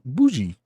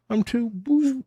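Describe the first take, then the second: First: Said in the usual way. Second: High, put-on snooty voice on "I'm too bougie"; hammed-up fancy self-parody; mock bougie. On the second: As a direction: play the snob much higher than your own voice. Mocking own fancy taste.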